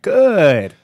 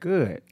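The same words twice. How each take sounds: First: The vowel is drawn out even longer. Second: The vowel is drawn out somewhat. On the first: Things are almost very good. "That's when it's almost very good" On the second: Things are better than fine. "That's about three O's"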